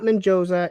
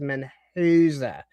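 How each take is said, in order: First: The name is said with a J sound. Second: The name is said without a J sound. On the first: The speaker calls it wrong. "There is no J. It is not Mendoza" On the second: The speaker calls it right. "It is Mendoza"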